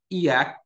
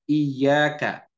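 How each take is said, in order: First: The y sound is short and single. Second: The y sound is doubled and held longer. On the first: The sunlight we worship. The speaker calls it wrong. "nggak pakai tasydid" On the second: Only you do we worship. The speaker calls it right. "Di sini ada tasydid"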